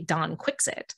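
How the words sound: The name is said in the British way.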